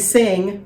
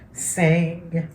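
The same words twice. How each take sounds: First: The voice sounds open with full nasal resonance. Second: The voice sounds stopped up, as with a cold. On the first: "say sing without it" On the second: "close off your nose, you can feel how that's kind of like stopped up"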